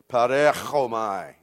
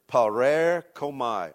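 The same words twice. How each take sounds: First: The consonant before 'omai' is a throaty ch. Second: The consonant before 'omai' is a plain k.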